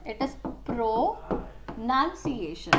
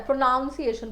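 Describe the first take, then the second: First: Pronunciation said pro-NUN-ciation with a short "uh", slow and careful; correct pronunciation. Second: प्रोनाउंसिएशन said pro-NOUNCE-iation, with the "ow" sound of pronounce; mock the common slip, pro-nounce-iation with "ow"; wrong pronunciation. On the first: Teacher models the right way for students: pronunciation, slow pro-nun-ciation. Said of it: "So it is pronunciation". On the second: Teacher shows students the common mistake: प्रोनाउंसिएशन with "ow", pro-nounce-iation. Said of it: "गलत बोलते हो". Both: Shown as a demonstration.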